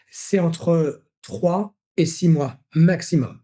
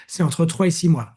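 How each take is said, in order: First: Very slow, each word weighed; slow emphasis. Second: Said in the usual way. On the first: Shown as a demonstration. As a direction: spell out the ideal rhythm slowly. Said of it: "insiste sur le rythme idéal". (lentement, en appuyant chaque mot) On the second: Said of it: "répète le rythme idéal".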